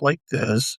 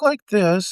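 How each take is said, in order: First: The voice drops to its lowest pitch. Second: The voice is raised to a higher pitch. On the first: "and then drop like this" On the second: "I can talk like this"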